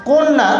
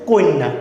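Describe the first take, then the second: First: Said in the usual way. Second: "কন্যা" said koinna, with i before the double n; regional epenthetic pronunciation. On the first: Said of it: "জফলার জন্য ইকার আসে". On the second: Shown as a demonstration. Teacher shows how the word changed regionally, "কন্যা" pronounced koinna. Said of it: "কন্যা কিন্তু একটা আঞ্চলিক ভাষা".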